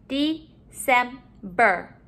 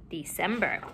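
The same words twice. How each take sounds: First: "December" slowly, in three beats; syllable by syllable. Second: Said in the usual way. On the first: Shown as a demonstration. Teacher modeling syllables to put together, broken up. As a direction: split "December" into separate syllables. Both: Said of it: "let's put our syllables together".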